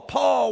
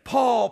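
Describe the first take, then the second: First: The second Paul shouted much higher and louder; calling shout. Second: Higher, louder call of the name Paul; divine voice calling. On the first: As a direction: cry Paul out at full reach. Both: Retold or imitated. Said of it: "a voice calling me".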